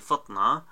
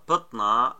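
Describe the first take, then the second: First: The word begins with an f sound. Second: The word begins with a p sound.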